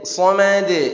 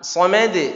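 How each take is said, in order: First: The final consonant bounce is slow and drawn out. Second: The final consonant bounce is quick and tight. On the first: "posisi penekanan yang agak lambat" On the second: "menempel lebih cepat"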